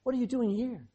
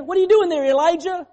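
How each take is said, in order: First: Softer and calmer, just asking; the right, gentle version of God's question. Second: High, loud and accusing; the wrong, harsh version of God's question; mock angry shout. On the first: Pretend. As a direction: ask it kindly, without blame. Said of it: "He said". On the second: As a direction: bark it at him like a scolding God. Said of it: "He didn't say that".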